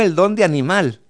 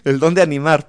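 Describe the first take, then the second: First: The final R is pronounced as an L. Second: The final R is pronounced as an R. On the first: Someone who cannot pronounce R said it. The speaker calls it wrong. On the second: It is the intended correct form. The speaker calls it right.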